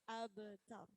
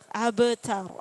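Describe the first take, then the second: First: No vowel is heard after the b. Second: An extra vowel is heard after the b. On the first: The speaker calls it right. "Jangan sampai be" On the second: The speaker calls it wrong. "tidak ada be be be tidak ada. Abetar, abetar, abetar gitu"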